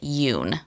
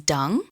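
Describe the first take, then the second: First: The name begins with a Y sound. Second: The name begins with a D sound. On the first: The speaker calls it right. "so you actually pronounce it Yoon" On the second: The speaker calls it wrong. "you'll hear some people pronounce it as dung"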